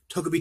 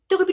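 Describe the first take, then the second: First: It is said in a normal voice. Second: It is said in a high-pitched voice.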